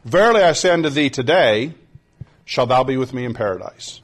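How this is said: The pause comes after the word today.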